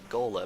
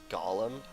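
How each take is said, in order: First: It is said unlike the character's name. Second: It is said like the character's name. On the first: The speaker calls it right. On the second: The speaker calls it wrong.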